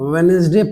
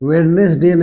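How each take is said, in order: First: The middle d sound is silent. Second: The middle d sound is pronounced. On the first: The speaker calls it right. "इसको आप वेनेसडे पढ़ेंगे" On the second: The speaker calls it wrong. "वेडनेसडे नहीं"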